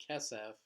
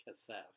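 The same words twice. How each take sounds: First: "kesef" as KE-sef; "kesef" with the accent at the front; stress on first syllable. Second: "kesef" as ke-SEF; the wrong "kesef", stressed on its second syllable; stress on last syllable. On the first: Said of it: "the accent is always going to fall on the first segulate". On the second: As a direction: push the accent onto the end of "kesef". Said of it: "and not kesef". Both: Shown as a demonstration.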